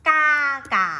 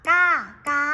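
The two takes are said the same way.

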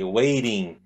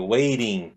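First: The t is a soft flap, like an r. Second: The t is a soft flap, like an r.

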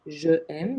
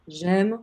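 First: The e of je is said before aime. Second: The e of je is dropped before aime. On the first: The speaker calls it wrong. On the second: The speaker calls it right.

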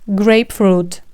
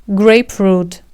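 No difference in how they are said.

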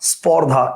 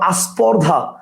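First: The word starts directly with the s consonant. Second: An extra vowel is added before the s. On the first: "আমি যদি বলি দেখেন স্পর্ধা" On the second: "এটা না বলে কি বললাম"

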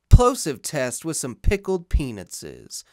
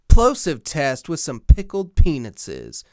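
First: The low bass and plosive pops are reduced. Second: The low bass and plosive pops are full. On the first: The low cut filter is on. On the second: The low cut filter is off.

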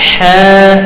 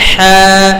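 No difference in how they are said.

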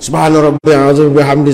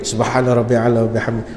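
First: It is said loudly. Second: It is said quietly.

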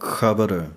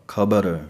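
First: It begins with a soft, raspy throat friction sound. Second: It begins with a full aspirated kh stop. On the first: "ਜਦੋਂ ਖੱਖੇ ਪੈਰ ਬਿੰਦੀ ਹੋਵੇਗੀ ਤਾਂ ਉਚਾਰਨ ਹੋਵੇਗਾ" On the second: "35 ਅੱਖਰਾਂ ਵਾਲਾ ਖੱਖਾ ਵਰਤ ਕੇ"

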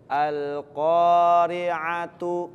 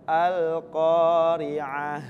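First: The word ends with a 't' and a short vowel. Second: The word ends with a breathy 'h' sound. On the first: The reading continues without stopping. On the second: The reader stops on this word.

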